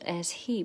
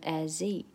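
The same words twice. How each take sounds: First: The h sound of he is pronounced. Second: The h sound is dropped, linking the words.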